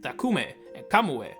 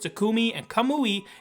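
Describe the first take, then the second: First: The final vowels are muted, Japanese-style. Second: The final vowels are full, English-style. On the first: "more muted" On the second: "the English version"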